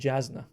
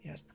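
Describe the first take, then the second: First: The name begins with a J sound. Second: The name begins with a Y sound. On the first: The speaker calls it wrong. "I always pronounce it Jasna, but I was like, it's a J" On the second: The speaker calls it right. "no, it's Yasna. Okay, Yasna"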